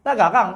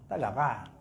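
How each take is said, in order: First: Tak garang said louder and higher, punched out; emphatic. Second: Mumbled. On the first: Preacher loudly assures the crowd their wives are not fierce, emphatic. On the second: Preacher mutters to husbands that their wives are not fierce, a sly mumble. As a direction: mumble Tak garang low and soft, under the breath. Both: Pretend.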